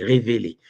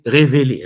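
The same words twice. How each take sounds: First: Said in the usual way. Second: "révélé" said loud and high, pointed; emphatic révélé. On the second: Acted. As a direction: lean hard on "révélé" with irony. Mocking "revealed" religions.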